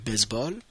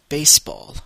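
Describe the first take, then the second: First: The middle consonant is a buzzing z sound. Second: The middle consonant is a hissing s sound. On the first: "en français on dit baseball avec un Z" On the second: "en anglais on dit baseball avec le son d'un S"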